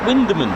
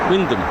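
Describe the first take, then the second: First: The name is said with three syllables. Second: The name is said with two syllables. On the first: The speaker calls it wrong. "Is it Winderman?" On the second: The speaker calls it right. "But it's Wyndham"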